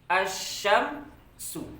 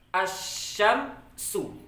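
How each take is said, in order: No difference in how they are said.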